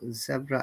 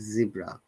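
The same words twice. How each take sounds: First: It is said with a British pronunciation. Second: It is said with an American pronunciation. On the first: "Zebra is the British uh, pronunciation" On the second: "American said zebra"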